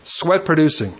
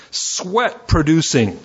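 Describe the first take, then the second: First: Sweat hit first, producing falls away; stress on Sweat. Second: Sweat producing drawn out, each word weighted, falling at the end; slow stress on sweat producing. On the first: Preacher to church, repeating the phrase with stress on Sweat. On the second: Preacher to church, stressing the key phrase slowly. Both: Shown as a demonstration. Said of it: "get this".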